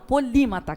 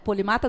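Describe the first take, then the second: First: The stress is on the second syllable. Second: The stress is on the third syllable. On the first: The speaker calls it right. "que tem um acento no i" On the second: The speaker calls it wrong. "Polimata não"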